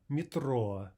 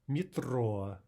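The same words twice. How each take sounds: No difference in how they are said.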